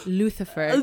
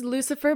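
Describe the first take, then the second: First: The middle consonant is a 'th' sound. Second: The middle consonant is an 's' sound. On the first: "but we pronounce it Luthifer" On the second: "His name is Lucifer"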